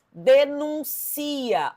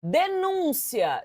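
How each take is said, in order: First: "denuncia" very slow, de-nun-CI-a; stress moved to CI. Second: "Denúncia" drawn out, stressed on NÚN. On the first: Teacher showing the word without its accent, "denuncia" slowly stressed on CI. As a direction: stretch "denuncia" out, landing on the CI. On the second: Teacher reading out the accented word, "Denúncia" stressed on NÚN. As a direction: say de-NÚN-cia slowly for "Denúncia". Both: Shown as a demonstration. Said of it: "se eu tirar o acento".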